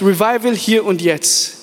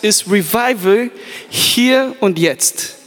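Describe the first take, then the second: First: Slow "Revival hier und jetzt", falling on "hier"; repeated theme. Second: Very slow "ist Revival hier und jetzt", falling on "hier"; sermon theme. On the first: Preacher repeats the theme for note-takers, emphatic. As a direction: say the title once more, emphatic. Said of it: "Nochmal, wenn du mitschreibst". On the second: Preacher gives the sermon theme for note-takers, very slow. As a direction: announce the title with weight. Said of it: "wenn du mitschreibst". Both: Shown as a demonstration.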